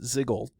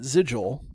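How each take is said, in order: First: The G is hard, as in 'go'. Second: The G is soft, like a J. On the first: This is how the speaker says it. "I pronounce it Ziggle ... the G sound" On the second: This is how the others say it. "you pronounce it Ziggle"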